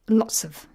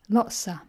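First: The phrase is said lightly, without stress. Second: The phrase is reduced to lotsa. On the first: "Lots of is the unstressed version" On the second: "the even more unstressed version is lotsa"

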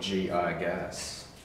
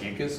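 First: The start is said as the letters G, I. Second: The start is said as one plain syllable. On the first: "It's like G.I. Joe" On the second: "You could pronounce it Gigas"

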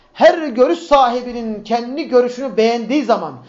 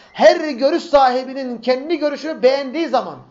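Both takes have the same delivery.

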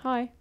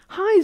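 First: It is a plain, ordinary greeting. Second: It is an over-the-top, excited greeting.

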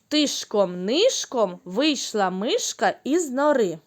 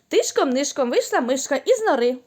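First: The line is spoken at a slow pace. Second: The line is spoken at a very fast pace. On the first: "спочатку повільно" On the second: "а тепер ще швидше"

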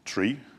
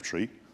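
First: The word begins with a plain T sound. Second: The word begins with a TH sound. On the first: "you'll hear me saying tree" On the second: "instead of tree"

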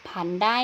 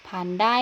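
No difference in how they are said.

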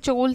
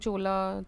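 First: The name ends on a consonant sound. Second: The name ends with an added vowel sound. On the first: The speaker calls it right. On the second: The speaker calls it wrong. "we ruined the names by adding A to everything"

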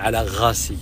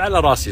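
First: The second word begins with a throaty gh sound. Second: The second word begins with a rolled r sound. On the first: This is how the Mosul dialect says it. "بعض الكلمات اللي فيها حرف الراء تنطق غين، ... هم يقولون على غاسي" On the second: This is how the speaker's own dialect says it. "احنا نقول على راسي"

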